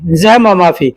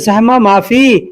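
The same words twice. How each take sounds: First: The phrase is said short, without stretching. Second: The phrase is said slightly drawn out. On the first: It tells someone that it is not crowded. "अगर खुद किसी को बताना हो कि भीड़ नहीं है तो कहेंगे" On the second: It asks someone whether it is crowded. "थोड़ा-सा खींच करके बोलेंगे"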